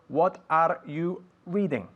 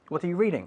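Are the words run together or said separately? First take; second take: separately; run together. First: Each word is said separately and fully. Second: The words run together in one smooth flow. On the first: The speaker calls it wrong. "mucho más natural que una persona diciendo" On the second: The speaker calls it right. "Así hablamos no, nosotros normalmente"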